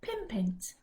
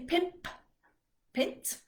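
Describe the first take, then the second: First: The two words are run smoothly together. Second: The two words are separated by a stop. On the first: The speaker calls it right. "much easier to say" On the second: The speaker calls it wrong. "you have to stop in between"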